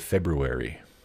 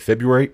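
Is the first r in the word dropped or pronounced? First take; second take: pronounced; dropped. First: The first r is pronounced, as spelled. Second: The first r is dropped, not like spelled.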